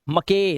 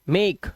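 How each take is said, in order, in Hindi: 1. अंतिम e को एक अतिरिक्त स्वर की तरह बोला जाता है। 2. शब्द व्यंजन पर खत्म होता है, अंत में कोई स्वर नहीं है।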